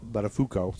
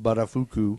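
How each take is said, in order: First: Buttafuoco with a final "oh"; corrected pronunciation. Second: Buttafuoco ending in "foo-koo"; mispronounced name. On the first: Host fixing his slip, Buttafuoco ending in "koh". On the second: Host reading out the lover's surname, mispronounced Buttafuoco with an "oo" ending. Name said wrong, then corrected. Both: Real, not acted.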